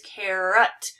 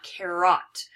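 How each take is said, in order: First: Carrot with a short unstressed ending, KEH-rət; right pronunciation. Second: Carrot with a full open "ot" ending, KEH-rot; wrong pronunciation. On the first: Teacher showing her class the correct carrot, KEH-rət. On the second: Teacher showing her class the mistaken carrot, KEH-rot. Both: Shown as a demonstration. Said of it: "not carrot".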